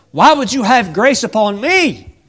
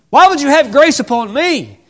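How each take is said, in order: First: Higher, louder wondering; wondering plea. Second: Much higher, louder cry of disbelief; rising plea. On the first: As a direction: ask in disbelief. Ruth asking Boaz. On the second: Ruth pleading to Boaz, much higher cry. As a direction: cry it out in wonder. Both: Acted.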